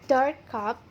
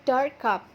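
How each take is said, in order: Both takes have the same delivery.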